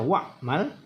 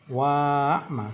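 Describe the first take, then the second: First: The alif after wa is silent. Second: The alif after wa is pronounced aloud. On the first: The speaker calls it right. "dibaca pendek ... alifnya tetap tertulis tapi tidak dibaca" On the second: The speaker calls it wrong. "jadi bukan wa'lam atau ini tadi wa'mal, salah"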